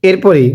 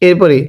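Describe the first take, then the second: Both takes have the same delivery.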